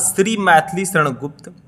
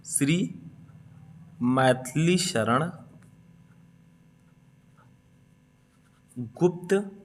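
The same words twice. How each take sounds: First: Said in the usual way. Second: Shri, Maithili Sharan, Gupta with long gaps; halting write-along pace, each part left hanging; slow dictation. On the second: Shown as a demonstration. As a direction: dictate the name slowly, rising on each piece. Dictating while writing it down.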